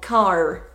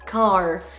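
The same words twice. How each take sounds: First: The final R is clearly pronounced. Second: The final R is clearly pronounced.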